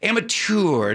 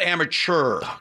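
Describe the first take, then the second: First: The ending is pronounced like 'tour'. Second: The ending is not pronounced like 'tour'. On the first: The speaker calls it right. "When I see T-E-U-R, it's tour" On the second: The speaker calls it wrong. "not amateur"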